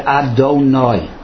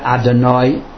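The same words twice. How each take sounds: First: The vowel after the D is a full O. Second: The vowel after the D is barely pronounced. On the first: The speaker calls it right. "should be read Adonai" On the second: The speaker calls it wrong. "Not Adonai"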